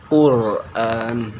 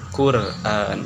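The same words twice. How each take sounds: First: The r is pronounced heavy and thick. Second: The r is pronounced light and thin. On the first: The speaker calls it right. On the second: The speaker calls it wrong.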